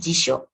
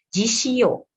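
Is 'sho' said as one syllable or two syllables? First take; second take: one syllable; two syllables. First: The 'sho' is said as one syllable. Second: The 'shi' and 'yo' are said as two syllables. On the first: The speaker calls it right. "ini juga satu bunyi" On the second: The speaker calls it wrong. "Bukan jishio"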